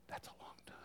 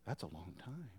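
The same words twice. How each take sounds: First: "That's a long time." whispered softly, savoring it; hushed whisper of wonder. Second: Said in the usual way. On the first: Acted. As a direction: breathe "That's a long time." as a delighted secret. Contrast hell versus heaven.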